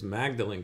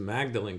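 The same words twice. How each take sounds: First: The name is said just as it is spelled. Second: The name is said just as it is spelled.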